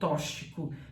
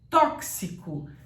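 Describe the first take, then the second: First: The x is not said as a ks sound. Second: The x is said as a ks sound. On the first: The speaker calls it wrong. "Não fale que você usou tóxico" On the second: The speaker calls it right. "Tóxico tem que ser falado com o som de x"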